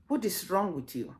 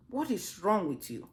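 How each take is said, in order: Both takes have the same delivery.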